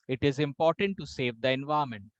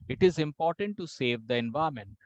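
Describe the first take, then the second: The two takes are said the same way.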